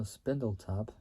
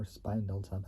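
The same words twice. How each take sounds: First: Spindletop said as SPIN-dul-top; short-i pronunciation. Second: Spindletop said as SPINE-dul-top; long-i pronunciation. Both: Shown as a demonstration. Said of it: "I don't even know how you say it".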